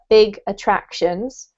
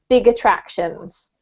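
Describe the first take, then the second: First: The two words are said separately. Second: The final g links into the next vowel.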